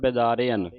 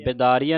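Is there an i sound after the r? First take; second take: yes; no. First: There is an i sound after the r. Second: There is no i sound after the r. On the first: The speaker calls it right. "ਰਾਰੇ ਨੂੰ ਸਿਹਾਰੀ ਦੀ ਆਵਾਜ਼ ਉਚਾਰਨ ਹੋਵੇ" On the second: The speaker calls it wrong. "ਬਿਦਾਰਿਅਨ ਨਹੀਂ ਪੜ੍ਹਨਾ"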